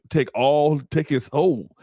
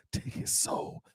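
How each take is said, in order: First: Lightly voiced sorcerer, a little higher; a hint of a game villain claiming a soul; Shang Tsung. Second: Whispered soul-stealing sorcerer; Shang Tsung. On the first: Commentator jokes she'll take his soul, as a lightly voiced villain. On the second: Acted. Commentator mimics a game villain taking souls, in a hushed whisper. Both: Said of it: "She like Shang Tsung from Mortal Kombat".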